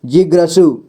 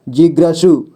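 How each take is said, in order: Both takes have the same delivery.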